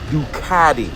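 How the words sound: It is said in an American accent.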